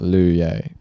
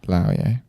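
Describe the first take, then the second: First: The first syllable sounds like 'loo'. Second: The first syllable sounds like 'lao'. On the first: The speaker calls it wrong. "it's not Lu Ye" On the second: The speaker calls it right. "It's Lao Ye"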